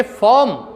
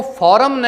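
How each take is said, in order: First: फॉर्म as one syllable, silent R; फॉर्म with a long vowel, no R; correct pronunciation. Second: फॉरम in two syllables with R; फॉरम in Indian pronunciation; wrong pronunciation. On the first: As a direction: say फॉर्म as "fawm". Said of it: "इस तरीके से आप बोलिए". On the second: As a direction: say फॉरम with a sounded R. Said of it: "फॉरम न बोल करके". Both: Shown as a demonstration.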